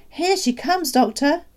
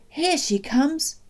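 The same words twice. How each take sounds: First: Very high, louder urgent call; excited calling out. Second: High, drawn-out call. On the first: Father alerting the doctor to her arrival, excited call. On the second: Father pointing down the road, calling out. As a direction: announce an arrival down the road. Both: A narrator's reading. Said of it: "my father called out".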